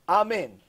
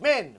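First: Both syllables are said in full. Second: Only the second syllable is said. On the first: The blessing is said with full intention. The speaker calls it right. "unless you're going to say Amen" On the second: The blessing is said carelessly and counts against the speaker. The speaker calls it wrong. "don't be one of these people that says half of Amen"

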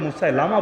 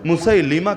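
First: The vowel after l is an a sound. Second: The vowel after l is an i sound. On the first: The speaker calls it wrong. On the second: The speaker calls it right.

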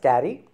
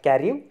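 First: The name ends with an ee sound. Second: The name ends with an oo sound. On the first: The speaker calls it right. "it's a Thomas Carey" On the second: The speaker calls it wrong. "not Carew"

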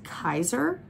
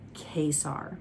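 First: The name sounds like the bread roll 'Kaiser'. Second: The name does not sound like 'Kaiser'. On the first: Someone else said it this way. The speaker calls it wrong. "pronounced it as Kaiser, like the role" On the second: This is how the speaker says it. The speaker calls it right. "I pronounce his name Kesar"

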